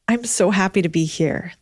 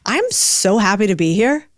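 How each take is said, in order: First: The happiness sounds forced and fake. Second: The happiness sounds committed and genuine.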